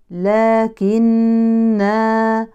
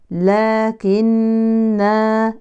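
Both takes have the same delivery.

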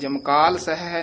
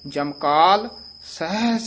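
First: The words run together with no pause. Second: There is a short pause after the first word. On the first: The speaker calls it wrong. "ਜਮਕਾਲ ਸਹਿ ਨਹੀਂ ਕਹਿਣਾ" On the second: The speaker calls it right. "ਜਮਕਾਲ ਇੱਥੇ ਯਮਕ ਲਾਉਣੀ ਹੈ"

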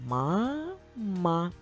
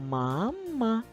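First: The word is read slowly. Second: The word is read a bit faster.

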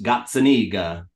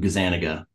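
First: The name is said with Italian pronunciation. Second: The name is said with American pronunciation. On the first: This is how it is said in the original country. "over in Italy, it's pronounced Gazzaniga" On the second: This is how the family says it after generations in America. "has gotten Americanized to Gazzaniga"

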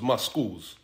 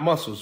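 First: The ending is said like the word 'skulls'. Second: It is said the ordinary way, ending in 'sels'. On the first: The speaker calls it right. "because there's mus in the skulls" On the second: The speaker calls it wrong. "not muscles"

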